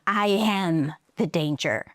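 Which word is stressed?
am. The stress falls on the word am. Being the danger himself is what matters. "So he stresses am"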